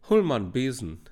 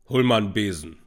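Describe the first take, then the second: First: It is said in a high voice. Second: It is said in a deep voice.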